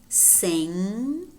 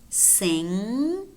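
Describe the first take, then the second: Both takes have the same delivery.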